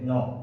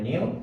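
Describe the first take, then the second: First: The word is said like 'no'. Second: The word is said like 'new'. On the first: The speaker calls it right. "কিন্তু এটা উচ্চারণ হবে নো" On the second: The speaker calls it wrong. "এটা অনেকে উচ্চারণ করে নিউ"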